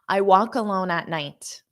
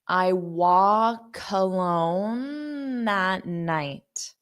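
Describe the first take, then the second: First: The sentence is spoken quickly with linked sounds. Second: The sentence is spoken slowly and carefully. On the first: "I'll say it fast" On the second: "So I'll say it slow"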